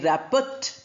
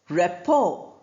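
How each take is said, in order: First: The t sound is pronounced. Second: The t sound is left out. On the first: The speaker calls it wrong. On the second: The speaker calls it right.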